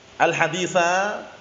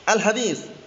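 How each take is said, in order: First: The word ends with an added a vowel. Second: The word ends on the consonant s.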